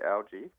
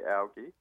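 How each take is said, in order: First: The word is said the American way. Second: The word is said the Australian way. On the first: "in America, you say algae" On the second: "In Australia, we say algae"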